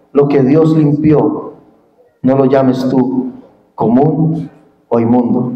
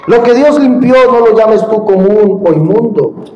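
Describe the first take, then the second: First: Low, slow, solemn divine voice; voice of God. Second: Said in the usual way. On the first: Acted. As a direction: deliver God's command low and slow. Voicing God's command to Peter.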